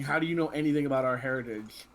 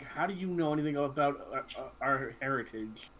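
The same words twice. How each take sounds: First: Mildly angry challenge, firmly voiced. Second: Understated growled challenge, slightly halting; a touch of a growl, feeling for the words; mild growl. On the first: Jason looks up at Luke and demands an answer, mildly angry. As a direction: demand it with a touch of anger. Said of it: "and angrily". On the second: Acted. Jason challenges Luke about their heritage with a mild growl. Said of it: "Jason's gonna growl".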